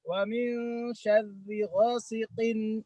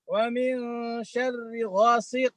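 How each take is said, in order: First: The last word ends with an -in sound. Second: The last word ends on q without -in. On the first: The reciter continues into the next word. "Ketika wasal" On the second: The reciter pauses at this word. "Kalau berhenti di situ"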